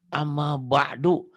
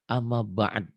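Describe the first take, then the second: First: The last word ends in a vowel u. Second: The last word ends in a d sound. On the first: The speaker calls it wrong. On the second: The speaker calls it right. "hukum tajwid sebenarnya amma ba'd"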